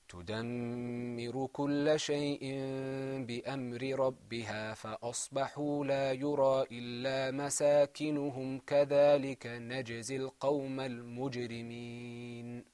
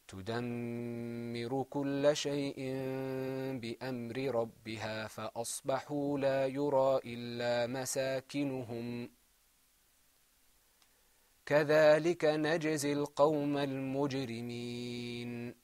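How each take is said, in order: First: The verse is read continuously without a pause. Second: There is a pause partway through the verse. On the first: "listen to it continuously" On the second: "read it by stopping there first"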